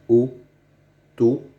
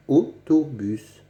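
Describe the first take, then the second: First: "autobus" stretched slowly, the O drawn out; slow demonstration. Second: Said in the usual way. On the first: Shown as a demonstration. Teacher showing pupils how autobus sounds, slowly. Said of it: "On dit".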